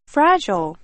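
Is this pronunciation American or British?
American. It is said with an American pronunciation. "미국에서는 fragile"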